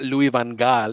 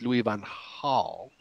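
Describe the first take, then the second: First: The G in Gaal is a hard G. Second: The G in Gaal sounds like an H. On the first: The speaker calls it wrong. "it's not Louis van Gaal" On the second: The speaker calls it right. "in Holland you pronounce the G's like H's"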